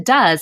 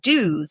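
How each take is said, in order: First: The vowel differs from the vowel in 'do'. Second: The vowel sounds like the word 'do'. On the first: The speaker calls it right. "It's just the pronunciation shift" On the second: The speaker calls it wrong. "students might want to read that word as do's"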